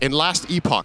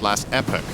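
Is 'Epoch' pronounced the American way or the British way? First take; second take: British; American. First: Epoch is pronounced in a British way. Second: Epoch is pronounced in an American way. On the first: The speaker calls it wrong. "That's not how you say it" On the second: The speaker calls it right. "I need to do my American uh, pronunciation of words"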